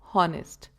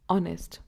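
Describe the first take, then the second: First: The word starts with an h sound. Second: The word starts without an h sound. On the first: The speaker calls it wrong. "not honest" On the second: The speaker calls it right. "we pronounce it as honest"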